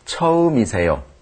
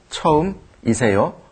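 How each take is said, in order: First: The syllables run together in a relaxed, natural way. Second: Each syllable is read carefully, exactly as spelled. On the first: "편하게 자연스럽게 읽기 위해서" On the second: "그대로 쓰여진 대로 읽으면"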